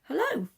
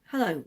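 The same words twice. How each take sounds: First: It is said in a high voice. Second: It is said in a lower voice.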